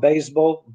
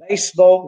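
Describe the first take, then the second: First: The middle consonant is a buzzing z. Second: The middle consonant is a hissing s. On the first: The speaker calls it wrong. "not baseball" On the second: The speaker calls it right. "we should use S instead of Z"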